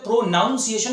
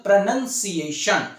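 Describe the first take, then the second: First: प्रोनाउंसिएशन with a full o sound in the middle; wrong pronunciation. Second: प्रोनाउंसिएशन with a reduced pruh-nun-si-ay-shun; correct pronunciation. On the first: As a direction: say प्रोनाउंसिएशन as pro-nown-si-ay-shun, the wrong way. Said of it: "नहीं बोलते". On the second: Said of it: "इसको बोलते हैं". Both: Shown as a demonstration.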